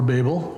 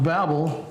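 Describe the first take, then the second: First: Babel said BAY-bul, long a; long-a pronunciation. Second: Babel said BAB-ul, short a; short-a pronunciation. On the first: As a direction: rhyme the first syllable of Babel with "bay". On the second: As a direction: rhyme the first syllable of Babel with "cab". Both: Shown as a demonstration. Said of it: "depending how you pronounce it".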